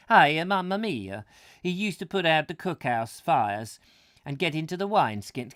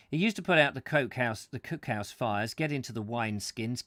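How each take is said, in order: First: Put-on loud, high comic Italian accent. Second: Said in the usual way. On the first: Reader tries the Roman soldier as Italian, comic Italian accent. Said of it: "Romans speaking with an Italian accent". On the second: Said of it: "they didn't really talk like that".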